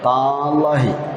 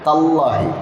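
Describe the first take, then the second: First: The vowel after the t is drawn out long. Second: The vowel after the t is kept short. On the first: The speaker calls it wrong. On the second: The speaker calls it right.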